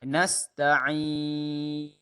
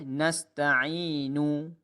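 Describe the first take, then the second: First: The word ends on a silent final consonant. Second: The word ends with a short vowel u. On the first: The reciter stops at this word. "berhenti dengan nafas habis" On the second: The reciter continues into the next words. "Kalau kita hidupkan dia"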